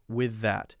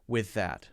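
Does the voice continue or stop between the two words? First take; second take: continues; continues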